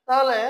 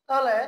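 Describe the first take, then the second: No difference in how they are said.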